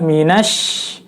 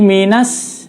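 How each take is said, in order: First: The consonant is a sh sound. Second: The consonant is a plain s sound. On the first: The speaker calls it right. "Yang betul adalah minash" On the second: The speaker calls it wrong. "bacanya seperti huruf shin saja"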